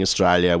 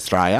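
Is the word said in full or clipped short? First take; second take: full; clipped. First: The word is said in full, every syllable clear. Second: The word is clipped short, with syllables dropped. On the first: "instead of saying Australia" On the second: "where people say Australia"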